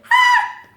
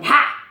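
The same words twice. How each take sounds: First: Very high, loud squeaked gasp; mouse's squeaky shocked "ha"; imitated mouse gasp. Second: Loud acted gasp, unraised pitch; cat's shocked "ha"; imitated cat gasp. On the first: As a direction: gasp like a startled tiny mouse. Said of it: "and the mouse going". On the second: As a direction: gasp like a startled big cat. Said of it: "as the cat going".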